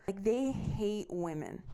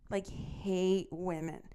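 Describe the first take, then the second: First: Said in the usual way. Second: "hate women" slow, each word weighted; stress on hate women. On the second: Real, not acted. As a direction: lean hard on "hate women", slowly.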